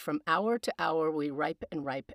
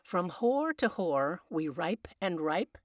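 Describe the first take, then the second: First: 'Hour' is said in modern pronunciation. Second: 'Hour' is said in original pronunciation, like 'whore'.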